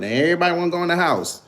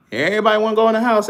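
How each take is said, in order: First: Said in the usual way. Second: Higher, louder, fast mocking repeat; raised teasing jab at the chat; mocking taunt. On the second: Real, not acted. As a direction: rub it in and call them out.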